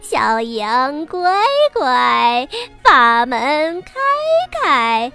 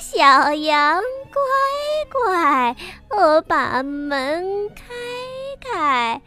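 First: The wolf's voice is rough and deep. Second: The wolf's voice is pinched and high.

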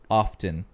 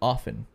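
First: The T sound is pronounced in the middle. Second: The T sound is left silent. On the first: "my mom corrects me when I say often" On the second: "She says the T is silent"

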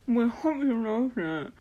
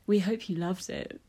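First: A sexy voice, muffled as if mouth full. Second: A sexy voice, spoken clearly.

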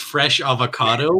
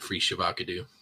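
First: The words are said plainly as 'fresh avocado'. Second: The words are run together as 'free shavacado'. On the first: It gives the intended phrase. The speaker calls it right. "it's fresh avocado" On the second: It imitates a joke mispronunciation. The speaker calls it wrong. "they say it wrong"

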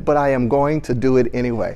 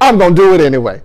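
First: It is said in a stiff, formal way. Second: It is said in a loose, casual street style.

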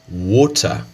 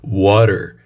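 First: It is said in a British English accent. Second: It is said in an American English accent. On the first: "no inglês britânico, comumente você veria" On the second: "A forma como eu falo"

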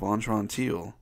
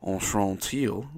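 First: The name is said with a plain accent. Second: The name is said with a French accent.

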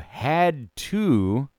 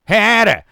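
First: Both words are said clearly and separately. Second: The words run together into one slurred word. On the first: The speaker calls it right. "You had to get a vaccine" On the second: The speaker calls it wrong. "Not hadda. You sound like someone from Boston"

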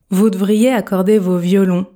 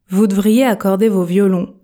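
Both takes have the same delivery.

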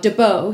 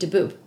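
First: The name is said the French-sounding way. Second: The name is said the original Middle Eastern way. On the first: This is the changed pronunciation used after the family migrated. "now DeBeau sounds very French" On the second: This is how the name was said where the family came from. "if you were in the Middle East, which is where it originates from, it would be DeBoob"

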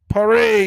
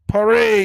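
First: Paris is said with a snobbish, affected pronunciation. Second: Paris is said with a snobbish, affected pronunciation.

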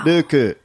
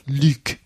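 First: The name is said with Japanese-style sounds, adding a vowel. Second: The name is said with French-style sounds, one syllable. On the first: "And in Japan, it's Ruku" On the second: "obviously in France, it's like Luke"

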